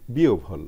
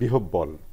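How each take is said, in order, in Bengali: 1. যুক্তাক্ষরটি o-এর পরে bh হিসেবে উচ্চারিত হয়। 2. যুক্তাক্ষরটি h এবং দ্বিত্ব b দিয়ে উচ্চারিত হয়। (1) "আসলে এটা হবে একই সূত্র অনুযায়ী" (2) "আমরা অনেক সময় ভুল করে বলি"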